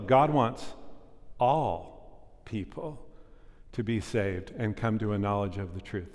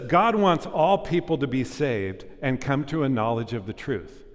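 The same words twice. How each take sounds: First: It is said slowly. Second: It is said at normal speed.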